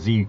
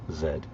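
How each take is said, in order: First: The letter is said as zee. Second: The letter is said as zed. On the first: The speaker calls it wrong. "I'm saying Z incorrectly" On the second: The speaker calls it right. "I have to say it properly"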